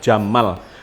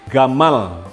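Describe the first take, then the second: First: The word begins with a J sound. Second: The word begins with a hard G sound. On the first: This is how it is said in the Arabian Peninsula. "kalau di dalam bahasa Arab Jazirah Arabia adalah jamal" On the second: This is how it is said in Egypt. "kalau Anda lihat di Mesir misalnya itu menjadi G"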